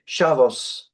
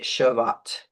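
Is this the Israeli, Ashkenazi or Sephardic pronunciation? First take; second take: Ashkenazi; Sephardic. First: It is said with an Ashkenazi pronunciation. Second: It is said with a Sephardic pronunciation.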